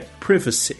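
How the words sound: It is said in a British English accent.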